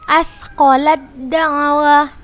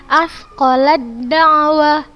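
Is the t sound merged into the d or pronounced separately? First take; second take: merged; merged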